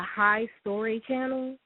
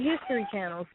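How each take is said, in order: First: The first syllable is a drawn-out 'high'. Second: The word is said as ordinary 'history'. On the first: This is how someone else mispronounced it. The speaker calls it wrong. "he watches the High Story channel" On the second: This is the real name of the channel. The speaker calls it right. "not the History Channel"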